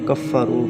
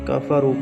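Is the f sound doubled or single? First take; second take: doubled; single. First: The f sound is held and doubled. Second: The f sound is short and single. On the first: The speaker calls it wrong. "मुशद्दद" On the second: The speaker calls it right. "मुख़फ़्फ़फ़"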